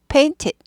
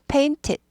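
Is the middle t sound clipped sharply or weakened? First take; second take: clipped; clipped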